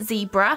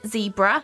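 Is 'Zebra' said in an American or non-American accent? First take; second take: American; American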